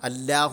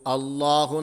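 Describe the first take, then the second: First: The L is thin, with a light, clear sound. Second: The L is thick, with a full, deep mouth. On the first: The speaker calls it wrong. "എന്നല്ല പറഞ്ഞത്" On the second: The speaker calls it right. "വായ നിറയെ ശബ്ദമുണ്ടാക്കും വിധം അക്ഷരത്തെ തടിപ്പിച്ചുച്ചരിച്ചു"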